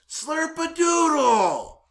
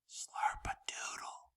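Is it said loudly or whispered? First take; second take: loudly; whispered. First: It is said loudly in a strong voice. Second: It is whispered very softly.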